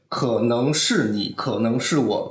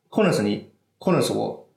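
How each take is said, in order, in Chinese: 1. 这是用标准普通话的声调说的。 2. 这是用西南官话的声调说的。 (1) "这普通话这么一个声调的一个曲折吧" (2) "但是如果是西南官话，就是西南官话是"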